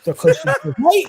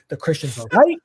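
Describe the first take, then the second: First: High-pitched, loud hysterical yelp; hammed-up panicked squeal; mock panic. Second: Mild alarm, rising at the end; uneasy realization, voice lifting on "right"; acted dread before the outburst; retold dawning panic. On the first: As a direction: shriek it like a sudden awful revelation. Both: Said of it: "I start panicking".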